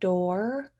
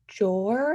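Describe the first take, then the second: First: The word starts with a D sound. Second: The word starts with a J sound. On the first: "the D door sound" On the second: "replacing it with a J sound"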